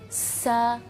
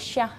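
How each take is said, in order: First: The consonant is a soft, thin s. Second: The consonant is a hushing sh. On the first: The speaker calls it right. "suaranya lebih lembut" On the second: The speaker calls it wrong. "seperti huruf um, apa ya uh, S dalam bahasa Inggris"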